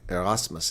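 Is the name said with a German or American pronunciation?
German. The name is said with a German pronunciation. "is how I would say it in German"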